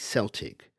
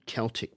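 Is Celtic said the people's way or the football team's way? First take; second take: team's way; people's way. First: It is said the way used for the team. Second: It is said the way used for the people. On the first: It refers to the football team. "when they mention the football team, they'll say Celtic" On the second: It refers to the Celtic people. "In English, they will pronounce it as the Celtic people"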